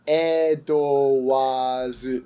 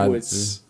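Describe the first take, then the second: First: The name is said Japanese-style with a long wa. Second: The name is said English-style, two short syllables.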